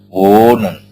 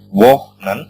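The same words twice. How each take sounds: First: The o vowel is said very long. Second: The o vowel is said short. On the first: The speaker calls it right. "tapi wohnen, ya. O terdengar sangat panjang" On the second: The speaker calls it wrong. "Kita mengucapkannya bukan wohnen"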